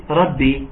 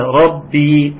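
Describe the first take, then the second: First: Said in the usual way. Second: ربي with the ba held and doubled. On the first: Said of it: "ما نقولش". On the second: Shown as a demonstration. Teacher correcting students, stressed doubled ba. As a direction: press the ba in ربي. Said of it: "فين المشددة".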